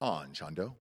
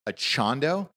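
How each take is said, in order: First: The first syllable has an n sound. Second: The first syllable has no n sound. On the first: The speaker calls it right. "there's an AN in there for sure" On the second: The speaker calls it wrong. "Am I even saying that right? Probably not"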